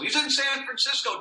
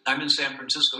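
First: High, sustained call relayed to the room; pitched way up, playfully passed along; joking background relatives. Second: Said in the usual way. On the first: Retold or imitated. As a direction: imitate a relative calling the news across the room. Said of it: "they were always joking and in the background". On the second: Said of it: "Or next time I call".

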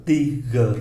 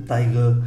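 First: "tigre" with a French ee vowel; French pronunciation. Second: "tiger" with an English eye vowel; English pronunciation, as counterexample. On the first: Teacher warns against English reading, French "tigre". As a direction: sound out "tigre" with ee, then g and r. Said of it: "nhưng mà đọc là". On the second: Teacher shows the reading to avoid, English "tiger". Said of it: "chứ không phải". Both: Shown as a demonstration.

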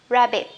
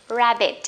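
Both takes have the same delivery.

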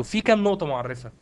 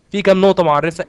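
First: Said in the usual way. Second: Louder repeated question. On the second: Shown as a demonstration. Teacher repeating a question to the students, loudly prodding. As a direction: ask again much louder, prodding the class. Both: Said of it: "ها؟".

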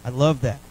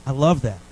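Both takes have the same delivery.

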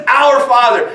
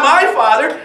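First: "Our" hit firmly and louder, falling; stress on our. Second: "My" lifted with a questioning rise; stress on my. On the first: Preacher correcting the congregation, hitting "Our" firmly. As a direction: punch the word "Our" with a falling close. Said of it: "He says". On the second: Preacher contrasting the wrong word, stressing "My". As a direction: lean on "My", rising at the end. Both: Shown as a demonstration.

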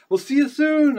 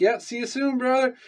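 First: Very high, loud mock goodbye; imitated departing call. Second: Retold goodbye, pitched up without extra volume; high farewell reply. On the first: Friend walking backwards waving goodbye, imitated high holler. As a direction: mimic someone calling back while walking away. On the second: Replying to his waving buddy, high retold send-off. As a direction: act out answering a departing friend, high. Own reply to departing friend, acted.

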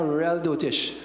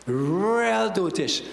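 First: Said in the usual way. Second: REAL stretched long with a rolling swell; very slow, leaning hard on "Real"; drawn-out emphasis. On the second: Real, not acted. Preacher scorning teachers of nonsense, drawn-out emphasis on REAL.

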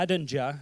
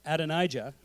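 First: Adonijah squashed to "a-DEN-ja"; stumbled mispronunciation. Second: Said in the usual way. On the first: Real, not acted. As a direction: fumble Adonijah, losing the long "eye" in the middle. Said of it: "I can never say his name". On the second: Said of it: "Thank you".

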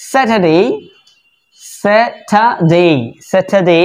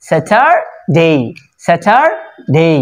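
First: স্যাটারডে as "sa-tuh-dey", no r sounded; British pronunciation. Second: স্যাটারডে as "sa-tar... dey", r sounded, slowly split; American pronunciation. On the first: Teacher modelling the word for learners, British pronunciation. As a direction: say স্যাটারডে syllable by syllable, dropping the r. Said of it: "আমরা British এবং American দুইটা উচ্চারণ দেখবো". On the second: Teacher showing the r is pronounced, American pronunciation. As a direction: draw out স্যাটারডে slowly with a clear r. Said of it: "আর এর উচ্চারণ হবে". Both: Shown as a demonstration.

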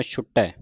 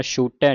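First: ਛੁਟੈ with short u and firm t; careful ਛੁਟੈ ending on open ai; correct short vowel. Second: ਛੂਟੈ with a long oo; wrong long vowel. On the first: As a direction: keep the u brief in ਛੁਟੈ. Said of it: "ਧਿਆਨ ਰੱਖਣਾ". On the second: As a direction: stretch the u in ਛੂਟੈ. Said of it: "ਨਹੀਂ ਕਹਿ ਦੇਣਾ". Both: Shown as a demonstration.

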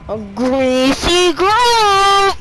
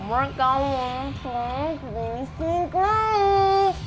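First: High, loud, slow yell of the name; stretched hyped-up shout; loud drawn-out hype. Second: Sung, drawn-out singsong. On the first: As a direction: shout it like an announcer. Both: Pretend. Hyping drop location.

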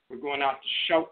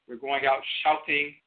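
First: "shout" said with a long oh, like "shote"; southern "shout", oh in place of ow; southern dialect pronunciation. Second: "shouting" said with a full ow vowel; northern dialect pronunciation. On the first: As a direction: make "shout" rhyme with "oat". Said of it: "In a southern dialect". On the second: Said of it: "In a northern English dialect". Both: Shown as a demonstration.

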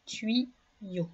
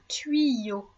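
First: "Tuyau" softly split in two, with a pause between syllables. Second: Said in the usual way. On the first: Shown as a demonstration. Teacher showing a pupil the second syllable, "Tuyau" split by a pause. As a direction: break "Tuyau" into two separate, softer syllables. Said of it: "On entend ye dans la deuxième syllabe". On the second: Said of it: "dans la deuxième syllabe".

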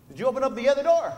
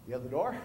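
First: Faster and louder, pushing the question; pressing question. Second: Puzzled echo. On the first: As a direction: push him to check the other door. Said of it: "He's like". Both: Retold or imitated.

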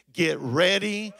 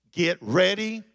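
No difference in how they are said.

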